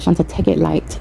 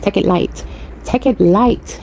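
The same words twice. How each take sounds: First: Said in the usual way. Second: Light Belizean accent imitation. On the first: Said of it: "I always say that to myself". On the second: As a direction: echo grandfather's Belizean accent. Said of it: "with his Belizean accent".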